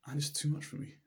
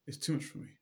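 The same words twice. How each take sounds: First: Said in the usual way. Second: "It's too much for me" breathed out unvoiced; whispered echo. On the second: Yankele repeating his burden to the Rebbe in a whisper. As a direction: let the repeat fade to a whisper of exhaustion. Weary water carrier repeats.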